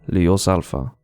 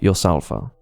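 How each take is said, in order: First: The word begins with a clear L sound. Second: The word begins without any L sound.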